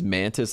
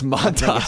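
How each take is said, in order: First: The name sounds like the insect mantis. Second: The name sounds different from the insect mantis. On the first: The speaker calls it wrong. "his name is Mantis, like a praying mantis" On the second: The speaker calls it right. "That's the proper pronunciation"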